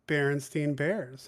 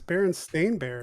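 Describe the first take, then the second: First: The name's last syllable sounds like 'stine'. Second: The name's last syllable sounds like 'stain'. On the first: The speaker calls it wrong. "it bothering me when people would say" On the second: The speaker calls it right.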